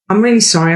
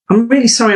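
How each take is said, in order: First: The voice falls at the end. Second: The voice rises at the end. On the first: The refusal is final and leaves no room to argue. The speaker calls it right. "Closed, completely closed" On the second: It invites the other person to push back. The speaker calls it wrong. "you're going up at the end of your voice"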